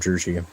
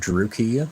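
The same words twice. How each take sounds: First: The middle consonant is a soft, non-K sound. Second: The middle consonant is a hard K sound. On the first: This is how other people say it. "I've heard other content creators call it Druchii" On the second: This is how the speaker personally says it. "I always call it Druchii with a K"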